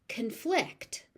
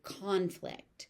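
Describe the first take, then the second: First: The stress is on the second syllable. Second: The stress is on the first syllable. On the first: It is used as a verb. "If it is being used as a verb" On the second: It is used as a noun. "If it is being used as a noun"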